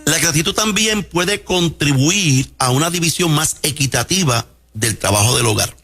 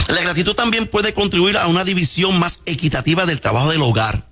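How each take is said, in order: First: Repeated slower and spelled out for clarity; slow it down so every word lands. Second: Said in the usual way. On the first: Shown as a demonstration. Doctor repeating for the radio audience, slower. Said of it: "vuelvo y lo repito lento". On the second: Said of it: "vuelvo y lo repito lento, porque yo hablo rápido".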